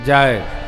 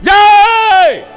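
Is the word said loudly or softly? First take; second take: softly; loudly. First: The word is said quietly and softly. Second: The word is said loudly and forcefully. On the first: Saying it this way has no meaning or effect. The speaker calls it wrong. "मैंने धीरे से बोला" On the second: Saying it this way has real effect. The speaker calls it right. "और जोर से बोला जाएगा"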